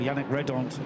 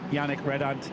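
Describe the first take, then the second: First: The name is said closer to its native pronunciation. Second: The name is said with an anglicized pronunciation. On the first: The speaker calls it right. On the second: The speaker calls it wrong.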